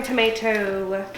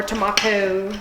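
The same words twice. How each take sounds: First: "tomato" with an AY in the middle; American tomato. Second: "tomato" with an AH in the middle; British-style tomato. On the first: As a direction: say "tomato" as tuh-MAY-toh. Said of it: "or tomato". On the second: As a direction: say "tomato" as tuh-MAH-toh. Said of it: "whatever the fuck you call it". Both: Shown as a demonstration.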